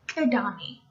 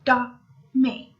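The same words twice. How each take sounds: First: Said in the usual way. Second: Edame broken slowly into syllables, E-da-me; syllable-by-syllable pronunciation. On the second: Shown as a demonstration. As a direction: sound out Edame with gaps between syllables. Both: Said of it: "I'm gonna pronounce it".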